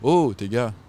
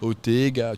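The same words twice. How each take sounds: First: The stress is on the last syllable. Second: The stress is on the second-to-last syllable. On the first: The speaker calls it wrong. "tu dis pas" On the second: The speaker calls it right. "en créole, l'accent il est sur l'avant-dernière"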